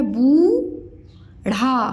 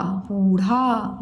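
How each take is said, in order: First: बूढ़ा drawn out slowly as two separate parts; syllable by syllable. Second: Said in the usual way. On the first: Shown as a demonstration. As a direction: sound out बूढ़ा with a long बू, then ढ़ा. (बूढ़ा को अलग-अलग तोड़कर, धीरे) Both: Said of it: "मैं अलग-अलग बताया करूँ".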